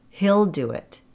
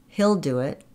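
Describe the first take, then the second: Both takes have the same delivery.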